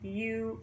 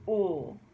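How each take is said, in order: First: The vowel starts with a y glide, like 'you'. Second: The vowel is a plain 'oo' without a glide.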